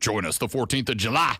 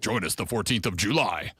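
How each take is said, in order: First: It is said in a formal announcer voice. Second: It is said in a relaxed, casual voice. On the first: The speaker calls it wrong. "you can't have like your official radio voice like" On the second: The speaker calls it right. "You got to be like"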